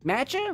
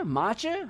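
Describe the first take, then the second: First: Matcha with a flat A as in cat, asked high; matcha pronunciation. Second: Matcha with a broad AH as in father, rising; matcha pronunciation. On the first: Streamer testing how to say the tea, MATCH-uh. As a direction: try Matcha as MATCH-uh, rising. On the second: Streamer testing how to say the tea, MAH-chuh. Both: Shown as a demonstration. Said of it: "How do you say that?".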